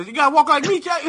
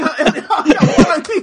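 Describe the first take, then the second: First: High, swaggering street-tough voice; a cocky thug telling the robot how to walk; Chappie gangster voice. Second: Giggly imitation of a street-tough voice; laughing gangster impression. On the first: Retold or imitated. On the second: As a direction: crack up while doing the Chappie thug. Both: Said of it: "those two motherfuckers from Chappie".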